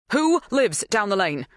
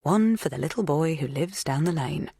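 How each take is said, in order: First: Urgent, higher-pitched demand; bursting out. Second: Lightly lilting recited rhyme; nursery rhyme. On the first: Helen questioning the farmhand, bursting out. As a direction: blurt it out, unable to hold back. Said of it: "Helen burst out, as if she couldn't contain herself". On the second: Rhyme popping into a worried man's head, lightly lilting. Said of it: "part of a nursery rhyme popped into". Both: A narrator's reading.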